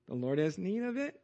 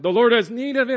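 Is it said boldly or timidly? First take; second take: timidly; boldly. First: It is said timidly and hesitantly. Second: It is said boldly and confidently.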